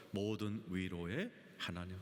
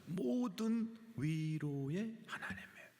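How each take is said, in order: First: Said in the usual way. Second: 모든 and 위로 drawn out slowly and pitched high; stress on 모든 위로. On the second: Shown as a demonstration. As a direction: stretch 모든 위로 with emphatic, raised pitch. Repeats verse words for emphasis. ("모든 위로"를 높고 길게 늘여 강조)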